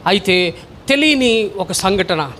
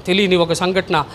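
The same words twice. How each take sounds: First: Slow suspense. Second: Said in the usual way. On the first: Shown as a demonstration. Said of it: "repeated for weight". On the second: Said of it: "repeated plainly".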